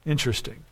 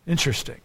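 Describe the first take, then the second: No difference in how they are said.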